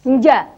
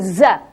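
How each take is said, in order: First: The consonant has no whistling hiss. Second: The consonant has a sharp whistling hiss. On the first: The speaker calls it wrong. "tanpa adanya seruit, maka yang berbunyi adalah nja" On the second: The speaker calls it right. "harusnya terbangun dari siul"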